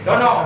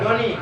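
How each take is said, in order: First: The word ends with an o vowel. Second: The word ends with an i vowel. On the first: The speaker calls it wrong. "Yang nggak boleh dono" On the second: The speaker calls it right. "boleh doni"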